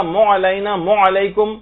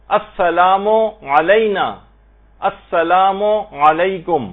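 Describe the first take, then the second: First: مو علینا said as one moo sound; wrong moo blend. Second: السلام, then a clear pause, then علینا; clear gap. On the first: Retold or imitated. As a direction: imitate people merging meem and ain. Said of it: "مو کی آواز نکالے". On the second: Shown as a demonstration. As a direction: pause between the two words. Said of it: "اس میں gap دیں".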